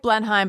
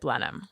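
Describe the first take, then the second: First: It is pronounced just as it is spelled. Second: It is pronounced differently from its spelling. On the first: The speaker calls it wrong. "It's spelled like Blenheim" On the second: The speaker calls it right. "but you pronounce it Blenheim"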